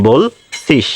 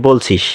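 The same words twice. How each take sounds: First: "বলছিস" slowly split as "বোল-ছিস"; প্রমিত উচ্চারণ. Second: Said in the usual way. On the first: Shown as a demonstration. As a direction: pause between bol and sis in "বলছিস". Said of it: "প্রমিত উচ্চারণ". ("বলছিস" ধীরে ভেঙে বোল-ছিস) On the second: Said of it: "প্রমিত রূপ সেটা হচ্ছে".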